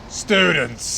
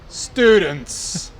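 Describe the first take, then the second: First: It is said in a meaner, husky voice. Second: It is said in a plain, less mean voice.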